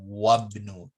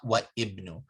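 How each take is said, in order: First: The i-vowel is dropped and the words join. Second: The i-vowel after wa is pronounced separately. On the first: The speaker calls it right. "this is what the point they want you to focus on" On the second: The speaker calls it wrong.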